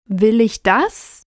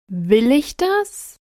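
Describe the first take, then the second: First: The stress is on the word 'das'. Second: The stress is on the word 'Will'.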